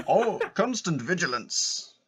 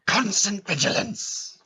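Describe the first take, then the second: First: Slow, slightly higher, laughing quote; drawn-out line through laughter; amused catchphrase recall. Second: Mock-gruff catchphrase cry, slow and higher; drawn-out theatrical exclamation; Moody. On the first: Acted. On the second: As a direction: bellow it as a hammed-up warning.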